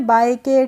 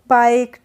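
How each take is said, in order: First: The final e is voiced as an extra syllable. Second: The final e is silent, one syllable. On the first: The speaker calls it wrong. "इसको हमने बाय के, ... नहीं पढ़ा है" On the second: The speaker calls it right. "कैसे पढ़ा है?"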